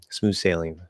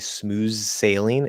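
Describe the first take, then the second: First: Said quickly, with the sounds run together. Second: Said slowly and carefully, each sound separate. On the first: The speaker calls it right. "if I'm speaking maybe normally or especially quickly" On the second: The speaker calls it wrong. "if I try to enunciate"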